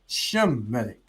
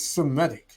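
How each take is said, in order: First: The word begins with a sh sound. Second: The word begins with a plain s sound. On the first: The speaker calls it right. "It's Shemitic" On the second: The speaker calls it wrong. "there's no such thing as Semitic"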